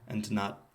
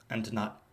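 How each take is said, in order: Both takes have the same delivery.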